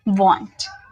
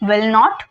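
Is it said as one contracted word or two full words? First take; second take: contracted; two words. First: One contracted word is said. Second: Two full words are said separately. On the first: "विल नॉट को वॉन्ट बोलते हैं" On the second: "विल नॉट को मिलाकर हम इसे बनाते हैं वॉन्ट"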